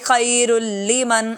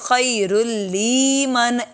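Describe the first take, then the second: First: The 'l' sound is kept short. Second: The 'l' sound is stretched out long. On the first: The speaker calls it right. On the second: The speaker calls it wrong.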